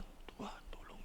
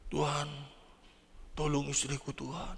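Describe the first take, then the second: First: Breathy whispered plea; a plea that fades out into a whisper; whispered prayer. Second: Quiet pleading prayer; a soft, hushed plea for the sick wife. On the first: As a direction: let the prayer die to a whisper. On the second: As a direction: beg God softly for the wife. Husband praying for sick wife. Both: Retold or imitated.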